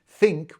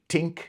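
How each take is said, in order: First: The word begins with a soft th sound. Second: The word begins with a hard t sound. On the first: "T H often changes like to like T" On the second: "Think would be tink"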